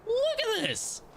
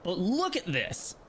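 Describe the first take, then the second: First: Much higher, excited; excited squeal. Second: Said in the usual way. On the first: Real, not acted. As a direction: squeal it in delight. Showing a view in game.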